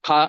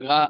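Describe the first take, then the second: First: The ka sound is pressed out forcefully. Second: The ka sound is said softly and lightly. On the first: "அழுத்தி சொல்லக்கூடிய கா" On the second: "கொஞ்சம் லேசா சொல்லக்கூடிய கா"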